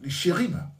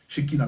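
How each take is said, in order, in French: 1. La consonne du milieu est un r roulé guttural. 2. La consonne du milieu est un son k dur. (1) "Ça se dit R. Vous voyez? Où on roule le R" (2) "On entend certains dire Shekinah"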